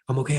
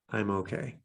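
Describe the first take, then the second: First: The phrase is said quickly and anxiously. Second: The phrase is said slowly and calmly. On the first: The speaker is still anxious. The speaker calls it wrong. "say them really fast, and that can create more anxiety" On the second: The speaker is calming down. The speaker calls it right. "it's a very slow pace because you're only saying it once per breath"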